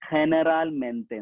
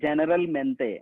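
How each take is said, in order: First: The word begins with an H sound. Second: The word begins with a J sound. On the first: "നമ്മൾ ശരിക്കും സ്പാനിഷിൽ വായിക്കുക" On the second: "ഇംഗ്ലീഷിൽ എഴുതിയിട്ടുണ്ട്"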